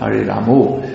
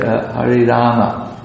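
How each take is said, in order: First: The last word ends in an 'o' vowel. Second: The last word ends in an 'a' vowel. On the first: The speaker calls it wrong. "not Hari Ramo" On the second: The speaker calls it right. "and Hari Rama"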